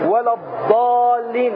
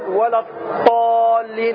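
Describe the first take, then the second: First: The letter is pronounced as a plain d. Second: The letter is pronounced as an emphatic t. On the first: "هذه دال" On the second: "هذه طاء"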